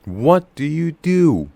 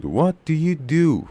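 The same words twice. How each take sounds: First: What and do hit hard, slow; stress on what and do. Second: Slow, What and do stressed. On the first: Teacher repeating the model, stress on what and do. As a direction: lean on What and do, let you fade. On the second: Teacher models the sentence stress slowly. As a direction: punch What and do, swallow you. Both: Shown as a demonstration. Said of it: "what و do روشون استرس بود".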